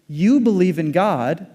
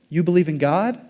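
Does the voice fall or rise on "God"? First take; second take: fall; rise. First: The voice falls on "God" like a statement. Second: The voice rises on "God" like a question.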